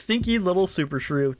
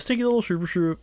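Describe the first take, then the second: First: The phrase is said at a slow pace. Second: The phrase is said at a fast pace.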